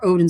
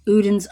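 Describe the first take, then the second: First: The name begins with an 'oh' vowel. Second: The name begins with an 'oo' vowel. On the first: The speaker calls it right. "or Odin's" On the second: The speaker calls it wrong. "I think I've been saying that wrong"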